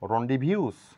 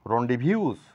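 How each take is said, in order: No difference in how they are said.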